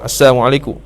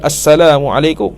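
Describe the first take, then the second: First: The 'l' sound in the greeting is left out. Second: The 'l' sound in the greeting is clearly pronounced. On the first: It wishes death upon the listener. The speaker calls it wrong. "tak ada lam. Lam tak ada" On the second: It wishes peace upon the listener. The speaker calls it right. "Patutnya bagi salam, salam elok, salam sejahtera atas kamu"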